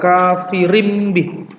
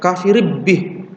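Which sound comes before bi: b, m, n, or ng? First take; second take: m; b. First: The tanwin is changed into an m sound. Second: The tanwin is merged into a b sound. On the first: The speaker calls it right. "tetapi diganti dengan mim, kafirim bi" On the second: The speaker calls it wrong. "atau bukan kafirib bi"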